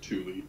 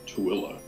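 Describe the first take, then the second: First: The name is said like 'Thule'. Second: The name is said as 'Tooele'. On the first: This is how the spelling suggests it is said. The speaker calls it wrong. "looks like you would pronounce it Thule" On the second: This is how the name is really said. The speaker calls it right. "it's actually pronounced Tooele"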